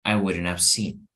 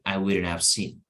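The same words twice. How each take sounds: First: The h in have is dropped and reduced. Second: The same.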